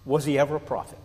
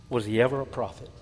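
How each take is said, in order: First: "ever" leaned on, falling; first asking, "ever" stressed. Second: Softly repeating "ever" with a falling end; quieter echo. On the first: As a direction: rhetorical question leaning on "ever". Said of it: "repeated for emphasis". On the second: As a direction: drop it to a hushed repeat. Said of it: "repeated softer". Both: Shown as a demonstration.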